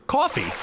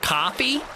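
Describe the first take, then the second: First: "Coffee" as high KAW-fee, falling; testing the pronunciation. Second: "coffee" as high, questioning KAH-fee; testing the pronunciation. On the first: Streamer trying it the other way, "Coffee" as falling KAW-fee. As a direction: say "Coffee" with a rounded AW, dropping at the end. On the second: Streamer unsure how to say it, "coffee" as questioning KAH-fee. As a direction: try "coffee" with an open AH, pitched up at the end. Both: Shown as a demonstration. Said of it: "how are you supposed to say it".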